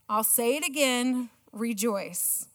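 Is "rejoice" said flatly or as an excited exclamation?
flatly. Rejoice is said in a flat, reading tone.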